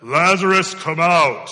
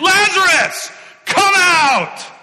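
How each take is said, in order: First: The line is said quietly, without force. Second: The line is shouted loudly, with strong force. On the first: The call is calm and unemotional. The speaker calls it wrong. "I don't think it was a" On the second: The call is full of grief and emotion. The speaker calls it right. "he cried out with a loud voice"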